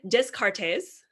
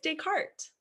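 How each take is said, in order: First: The name is said with English sounds. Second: The name is said with French sounds. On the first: The speaker calls it wrong. "So it is not Descartes" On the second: The speaker calls it right. "It's Descartes"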